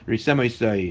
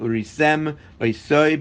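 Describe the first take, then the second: First: The two words run together without a break. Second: The two words are kept apart with a break. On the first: The speaker calls it wrong. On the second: The speaker calls it right.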